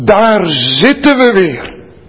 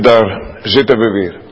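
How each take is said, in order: First: It is said in a glad, positive tone. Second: It is said in a weary, resigned tone. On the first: Coming back here again is a good thing. "Je kunt dat natuurlijk heel positief duiden. Maar dan moet ik het anders uitspreken" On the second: Being here again feels like a burden. "En zo sprak ik het de eerste keer ook uit"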